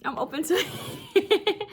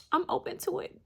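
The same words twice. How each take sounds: First: Laughing. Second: High and teasing; silly. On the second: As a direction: toss it off playfully. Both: Real, not acted. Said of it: "I'm being silly".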